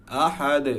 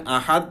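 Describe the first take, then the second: First: আহাদ with a bounced "de" ending; correct qalqalah. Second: আহাদ stopped dead on a "t"; wrong, no qalqalah. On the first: Teacher giving the correct form, qalqalah on আহাদ. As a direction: release the দ of আহাদ as a light echo. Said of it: "এরকম আসবে". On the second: Teacher showing a mistake, আহাদ with no bounce. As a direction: cut off আহাদ without any echo. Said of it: "হলে সুন্দর লাগবে না". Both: Shown as a demonstration.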